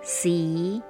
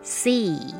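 First: The pitch rises at the end. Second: The pitch falls at the end.

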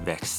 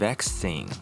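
First: The stress is on the last syllable, American style. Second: The stress is on the first syllable, British style.

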